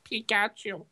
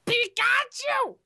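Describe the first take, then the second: First: The catchphrase dropped low, with no squeal; low, deflated repeat. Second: High, slow, stretched-out mascot squeal; Pikachu. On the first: Co-host after friend disagrees, low deflated delivery. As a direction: say it low and understated. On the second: Co-host asked for one more try, high squealed creature voice. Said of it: "one more time. L-, let's hear it". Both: Shown as a demonstration.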